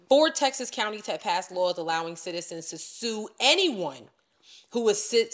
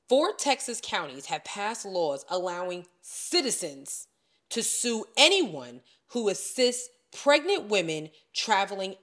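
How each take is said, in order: First: It is read at a normal, quicker pace. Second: It is read slowly and deliberately.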